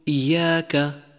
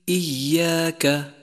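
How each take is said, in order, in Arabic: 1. صوت الياء المشددة ضعيف. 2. يُنطق صوت الياء المشددة بوضوح. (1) "وخطأ أن تقول إياك" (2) "يجب بيانه إذا كان مشددا"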